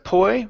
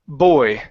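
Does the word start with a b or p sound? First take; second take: p; b. First: The word starts with a p sound. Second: The word starts with a b sound. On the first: The speaker calls it wrong. "instead of poi with a P" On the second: The speaker calls it right. "give me a good B sound"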